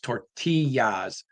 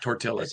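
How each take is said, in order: First: The middle of the word has a Y sound. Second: The middle of the word has no Y sound. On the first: The speaker calls it right. "It's tortillas. T O R T A Y A S" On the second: The speaker calls it wrong. "it's not tortillas"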